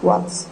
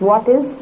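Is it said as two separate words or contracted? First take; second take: contracted; separate. First: The words merge into one contracted syllable. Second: Two words are said fully and separately.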